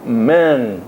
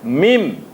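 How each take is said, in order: First: It ends with an open ng sound. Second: It ends with a closed m sound. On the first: The speaker calls it wrong. "bibirnya terbuka" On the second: The speaker calls it right. "Mesti tutup dia. Bibir dia"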